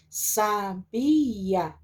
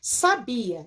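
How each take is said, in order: First: SABIA drawn out as sa, bi, a; syllable by syllable. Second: Said in the usual way. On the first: Shown as a demonstration. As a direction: slowly split "sabia" into three syllables. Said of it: "o A fica separado". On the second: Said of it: "nós já temos a separação aqui".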